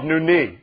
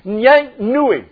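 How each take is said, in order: First: The word is said as nuni. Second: The word is said as nyang nui. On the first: The speaker calls it right. "It's called nuni" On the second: The speaker calls it wrong. "You don't know if I pronounced that right or not, so. And I didn't"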